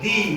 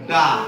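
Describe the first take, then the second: First: The vowel is a long 'ee' sound. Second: The vowel is a short 'uh' sound. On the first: The next word starts with a vowel. "যখন শব্দের শুরুতে vowel থাকে" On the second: The next word starts with a consonant. "কনসোনেন্ট দিয়ে যত শব্দ শুরু হবে তার পূর্বে"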